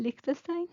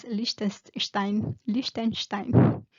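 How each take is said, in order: First: Liechtenstein as "Lik-te-stai", higher and questioning; Spanish guess at Liechtenstein, plain s, rising at the end; tentative Spanish pronunciation. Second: Liechtenstein as "Lish-ten-shtain", said slowly; drawn-out German Liechtenstein, each syllable spaced; German pronunciation. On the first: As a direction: try Liechtenstein with a hard k, pitched up unsurely. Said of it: "cómo se pronuncia en español". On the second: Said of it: "me lo imagino ya en alemán". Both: Shown as a demonstration.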